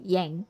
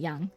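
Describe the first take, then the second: First: The name is said with an English-style vowel. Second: The name is said with a Chinese-style vowel. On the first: The speaker calls it right. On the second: The speaker calls it wrong. "It's not Yang. It's not a Chinese name"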